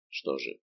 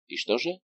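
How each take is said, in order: First: Что же? dropped much lower and softer; low quiet echo. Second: И что же? asked with a rising pitch; rising question. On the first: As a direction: repeat Что же? low and hushed to yourself. (тихо и низко «Что же?») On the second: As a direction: lift же up into a question. (вопрос с подъёмом на «же») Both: Acted.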